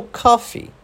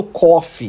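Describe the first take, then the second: First: "coffee" as KAH-fee; American "coffee", open ah in the first syllable; coffee with A vowel. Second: "coffee" as CAW-fee, open O; "coffee" spelled-out style, first vowel aw. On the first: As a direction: say "coffee" slowly with O sounding like ah. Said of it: "Do O com esse som de A". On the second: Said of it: "eu não falo coffee". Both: Shown as a demonstration.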